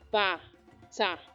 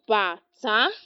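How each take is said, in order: First: Both syllables are on a low pitch. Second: The second syllable is higher than the first. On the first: It means shoe. "do do" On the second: It means drum. "the accent is different"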